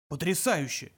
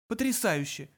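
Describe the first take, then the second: First: Awed word at usual pitch; amazed. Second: Higher-pitched ironic echo; unimpressed echo. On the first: Zaphod stares at the missiles, mildly amazed. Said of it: "вымолвил он". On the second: Arthur echoes Zaphod's amazement, higher and ironic. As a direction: throw the word back at him. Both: A narrator's reading.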